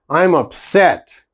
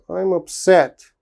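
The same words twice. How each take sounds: First: It is said in an angry tone. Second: It is said in a sad tone.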